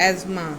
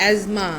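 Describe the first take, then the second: The two takes are said the same way.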